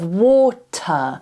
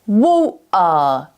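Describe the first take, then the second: First: The t is pronounced as a clear t. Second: The t is replaced by a throat stop. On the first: "instead of water" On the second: "she might say water"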